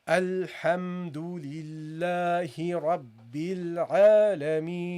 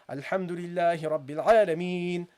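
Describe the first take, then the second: First: It is read slowly with long vowels. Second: It is read quickly with short vowels.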